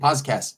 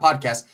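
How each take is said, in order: First: The first syllable sounds like 'pause'. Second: The first syllable sounds like 'pod'. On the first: The speaker calls it right. "I say podcast, because you need to pause and cast" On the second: The speaker calls it wrong. "not podcast"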